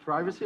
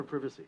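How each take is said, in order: First: First syllable of "privacy" rhymes with "pry"; PRY-vuh-see pronunciation. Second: First syllable of "privacy" as in "privet"; PRIV-uh-see pronunciation. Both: Shown as a demonstration. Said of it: "our enunciation of various terms".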